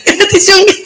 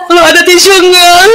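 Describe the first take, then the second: First: Higher, half-laughing repeat; laughing echo. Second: Higher, slow, tearful request; grieving friend. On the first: The speaker repeating the friend's request, higher and laughing. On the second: A grieving friend asking for a tissue, slow and higher. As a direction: ask for a tissue through tears. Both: Retold or imitated. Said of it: "Kecuali dia minta".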